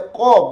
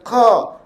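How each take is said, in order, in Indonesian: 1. Diucapkan dengan mulut tertutup dan teredam. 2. Diucapkan dengan mulut terbuka. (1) "Jangan dibaca qa, bunyi mengatup" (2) "Dia qa"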